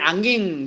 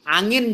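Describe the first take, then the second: First: The word ends with an ng-g sound. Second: The word ends with a plain n sound.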